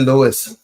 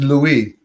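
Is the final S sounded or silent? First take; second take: sounded; silent. First: The final S is sounded. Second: The final S is silent. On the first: This is the American way of saying it. "the Americans say Louis" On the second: This is the French way of saying it. "in French is Louis"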